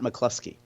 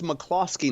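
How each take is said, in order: First: The middle vowel sounds like 'oo'. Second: The middle vowel sounds like 'oh'. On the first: The speaker calls it wrong. "not McCluskey. There's no U" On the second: The speaker calls it right. "it's McCloskey"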